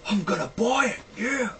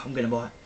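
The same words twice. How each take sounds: First: High, squealing excitement; odd high-pitched cheer; excited, weird voice. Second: Said in the usual way. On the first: Real, not acted. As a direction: burst out thrilled, pitch leaping up. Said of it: "Sorry if my voice sounds a bit weird".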